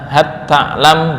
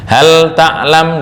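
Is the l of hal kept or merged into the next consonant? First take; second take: merged; kept. First: The l merges into a doubled t sound. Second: The l is pronounced clearly before the t. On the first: "dibaca hat ta'lam boleh" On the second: "Hal ta'lam dibaca hat ta'lam boleh"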